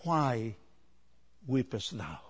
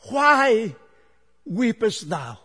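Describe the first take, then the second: First: Soft, low angelic question; quiet, hushed-down scripture quote; angel's question. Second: Loud, high "why", then easing down; projected, emphatic scripture quote; risen Christ's question. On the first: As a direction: ask it gently, voice dropped right down. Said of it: "one by the angel". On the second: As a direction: call out the question from the pulpit. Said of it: "raised the same question". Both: Acted.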